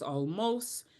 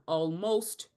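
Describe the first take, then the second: First: The final t sound is dropped. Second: The final t sound is pronounced. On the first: "final T's" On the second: "instead of almost"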